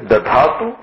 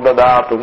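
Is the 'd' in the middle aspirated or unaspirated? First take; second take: aspirated; unaspirated. First: The middle d is aspirated, with breath. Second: The middle d is unaspirated, without breath. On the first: The speaker calls it right. "That dha must be dha" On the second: The speaker calls it wrong. "It is not the way to say"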